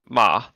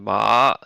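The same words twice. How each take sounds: First: The pitch drops through the syllable. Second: The pitch rises through the syllable. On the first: "the dropping tone" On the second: "the rising tone"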